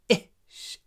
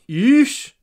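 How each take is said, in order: First: The vowel is short and clipped. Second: The vowel is long and fully voiced. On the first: The speaker calls it right. "but ish" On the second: The speaker calls it wrong. "So not ish"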